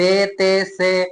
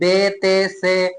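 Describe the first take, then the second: First: The letters are named with Urdu-style 'e' vowels. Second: The same.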